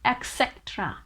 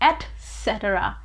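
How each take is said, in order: First: The word begins with an 'eks' sound. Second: The word begins with an 'et' sound. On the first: The speaker calls it wrong. "A lot of people pronounce this word with X sound" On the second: The speaker calls it right. "It is actually pronounced with T sound"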